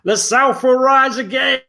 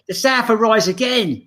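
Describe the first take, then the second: First: It is spoken in a Southern American accent. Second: It is spoken in an English accent. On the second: "That's English"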